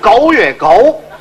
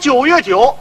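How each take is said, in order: First: It is said in Cantonese. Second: It is said in standard Mandarin.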